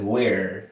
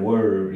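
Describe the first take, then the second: First: Where said more open and wide; where, broad open vowel. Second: Were with the sound closed off at the end; were, tight closed ending. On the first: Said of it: "como más amplia". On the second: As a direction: clip the end of were shut. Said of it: "cierra la pronunciación al final". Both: Shown as a demonstration.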